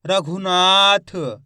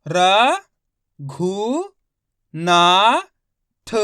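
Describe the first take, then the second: First: रघुनाथ blended slowly, ना held very long; slow whole-word reading of रघुनाथ; syllables joined up. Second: र, घु, ना, थ each isolated, ना long and loud; teacher spelling aloud र - घु - ना - थ; syllable by syllable. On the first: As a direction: stretch the ना in रघुनाथ, then release थ. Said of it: "तो मिलके बन जाएगा". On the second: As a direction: sound out र, घु, ना, थ with pauses. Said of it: "एक एक अक्षर का उच्चारण करके". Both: Shown as a demonstration.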